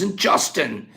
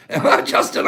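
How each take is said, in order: First: Said in the usual way. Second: Justin, breathed out through a laugh; laughing name call. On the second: Shown as a demonstration. Calling out a viewer's name, laughing. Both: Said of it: "I said your name a hundred ways".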